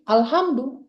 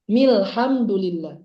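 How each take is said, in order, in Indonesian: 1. Dimulai baru, dengan hamzah. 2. Menyambung dengan bunyi sebelumnya, tanpa hamzah. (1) "kalau dia di berhenti kemudian di awal jadi bilangnya alhamdulillah" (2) "Hamzah wasal ini dihilangkan, jadi nggak dibaca, langsung ke lam aja"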